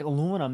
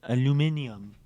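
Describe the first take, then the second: First: It is said the American way. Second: It is said the British way.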